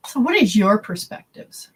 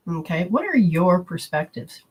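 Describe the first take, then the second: First: Whispered question, no voice. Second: Said in the usual way. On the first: Shown as a demonstration. Whispered question, then said plainly.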